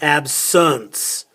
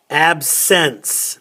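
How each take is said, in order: First: The final syllable is reduced and unclear. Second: The final syllable is clearly pronounced 'ence'. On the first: The speaker calls it wrong. "not absence" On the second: The speaker calls it right. "we can say the words correctly"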